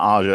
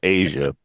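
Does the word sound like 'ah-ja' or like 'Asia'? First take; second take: ah-ja; Asia. First: The word sounds like 'ah-ja'. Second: The word sounds like 'Asia'. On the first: The speaker calls it wrong. "it's not Aja" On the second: The speaker calls it right. "it's pronounced Asia"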